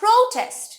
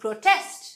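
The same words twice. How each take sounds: First: The stress is on the first syllable. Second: The stress is on the second syllable. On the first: It is used as a noun. "নাউনে আমাদের first অংশে stress হয়" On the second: It is used as a verb. "ভার্বে পরের অংশে stress হয়"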